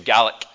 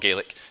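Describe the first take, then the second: First: Gaelic is given its Scottish pronunciation. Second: Gaelic is given a non-Scottish pronunciation. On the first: The speaker calls it right. "If you're ever talking about the Scots language, say Gaelic" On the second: The speaker calls it wrong. "It's not Gaelic"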